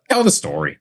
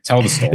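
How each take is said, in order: First: High, eager push to go on; egging him on, pitched way up; high excited urging. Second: Said in the usual way. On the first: Real, not acted. Urging co-host to tell story.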